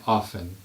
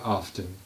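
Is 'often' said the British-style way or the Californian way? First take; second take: British; Californian. First: It is said in the British-style way. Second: It is said in the Californian way. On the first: The speaker calls it wrong. "they're taught here to say often" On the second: The speaker calls it right. "where I grew up in California, we say often"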